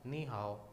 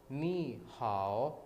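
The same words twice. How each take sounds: First: Said in the usual way. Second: नी हाओ very slow, नी rising; Chinese ni hao. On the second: Shown as a demonstration. (नी हाओ धीरे-धीरे, नी ऊपर उठाकर) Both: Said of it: "उसको कैसे hello कहेंगे".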